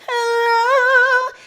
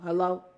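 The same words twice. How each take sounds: First: It is said in an exaggerated, sugary way. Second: It is said flatly and bluntly. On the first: This is a mocking imitation of forced politeness. "What am I supposed to go?" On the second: This is an ordinary greeting, not meant aggressively. "that's a very normal way for me to answer the phone"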